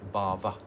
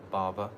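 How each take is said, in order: No difference in how they are said.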